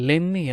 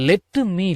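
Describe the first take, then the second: First: The two words are blended into one. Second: Both words are said fully and separately.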